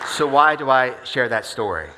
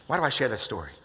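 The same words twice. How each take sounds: First: Louder, slow question with weight on why; slow emphatic question. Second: Said in the usual way. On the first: Shown as a demonstration. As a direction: lean in on why, slowly.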